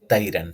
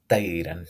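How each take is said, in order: First: The first consonant is light and thin. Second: The first consonant is light and thin.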